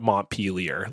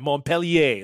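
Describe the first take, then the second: First: The name has an American English pronunciation. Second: The name has a French-style pronunciation. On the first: The speaker calls it wrong. "I just cannot believe you call it Montpelier" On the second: The speaker calls it right. "it's named after a guy"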